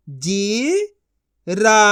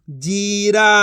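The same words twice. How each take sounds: First: जीरा split into जी, pause, रा; syllable by syllable. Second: जीरा as one joined word; level जीरा with no pause inside; blended reading. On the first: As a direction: sound out जीरा in two syllables. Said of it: "एक एक अक्षर का उच्चारण करके". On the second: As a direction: join जी and रा. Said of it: "इनको आपस मिला के पढ़". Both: Shown as a demonstration.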